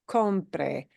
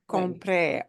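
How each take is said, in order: First: The stress is on the first syllable. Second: The stress is on the final syllable. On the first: It is the subjunctive: that I buy. The speaker calls it right. "it's going to be important to pronounce that compre word as compre" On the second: It is past: I bought. The speaker calls it wrong. "not compre"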